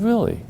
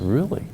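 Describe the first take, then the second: First: A high, startled "Really?"; delighted disbelief; surprised. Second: Said in the usual way. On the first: Retold or imitated. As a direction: jump way up in surprise. Hears she gave full description.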